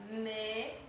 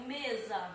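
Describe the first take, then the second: First: MESA split slowly into "me" and "za", with a gap; syllable by syllable. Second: Said in the usual way. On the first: Shown as a demonstration. Teacher showing two syllables, mesa broken into me, za. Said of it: "duas sílabas". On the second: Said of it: "Aqui eu tenho mesa".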